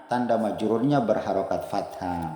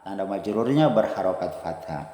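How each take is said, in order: The two takes are said the same way.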